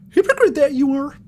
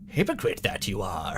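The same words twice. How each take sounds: First: It is said in a put-on Mickey Mouse voice. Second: It is said in his normal voice.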